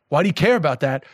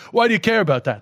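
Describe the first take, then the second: First: Blunt question in a New York accent. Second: Higher, innocently curious question; just curious. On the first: Guest showing how their question gets misheard as aggressive, blunt. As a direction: ask it matter-of-factly, so it could pass for a challenge. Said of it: "it's also kind of an aggressive accent". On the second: Guest showing what they really meant by the question, curious. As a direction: ask out of simple curiosity, with no challenge. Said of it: "I'm just curious". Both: Shown as a demonstration.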